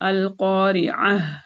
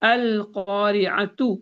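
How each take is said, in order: First: It ends with a soft h sound. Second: It ends with a t sound and a vowel. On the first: The reading stops at the word. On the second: The reading continues past the word.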